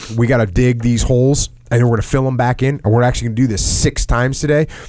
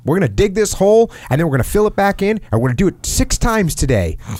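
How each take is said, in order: First: It is said in a normal, confident leader's voice. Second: It is said in a put-on, unconvincing voice.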